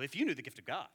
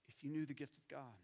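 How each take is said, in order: First: The tone is harsh and scolding. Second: The tone is warm and compassionate. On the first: The listener is being rebuked for not knowing. The speaker calls it wrong. "We can read it with this tone of voice" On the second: The speaker longs to share something with the listener. The speaker calls it right. "This is how Jesus talked"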